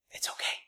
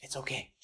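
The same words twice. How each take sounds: First: Breathy whisper, very soft; gentle whisper of comfort; whispered reassurance. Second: Much softer, low and gentle; barely voiced comfort; soft reassurance. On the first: Pretend. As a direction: whisper it to calm her. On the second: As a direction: hush her fear kindly. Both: Comforting the trembling woman.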